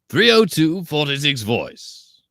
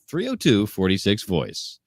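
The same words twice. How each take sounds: First: It is said in a put-on character voice. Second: It is said in a plain everyday voice.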